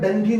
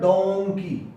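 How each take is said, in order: First: The first vowel sounds like 'uh'. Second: The first vowel sounds like 'o'. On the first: The speaker calls it wrong. "इसका भी डंकी नहीं" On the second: The speaker calls it right. "इसका तो है डोंकी"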